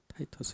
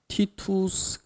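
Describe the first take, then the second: First: The name is pronounced the English way. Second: The name is pronounced the Latin way. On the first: "영어로는 타이터스 이렇게 됩니다" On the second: "티투스 그러면은 이제 라틴어 발음입니다"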